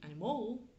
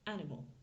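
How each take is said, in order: First: The syllables carry roughly equal stress throughout. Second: The stress falls strongly on the first syllable. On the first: The speaker calls it wrong. "ça va être un petit peu plus compliqué pour eux à comprendre" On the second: The speaker calls it right. "l'accent tonique est sur ma première syllabe"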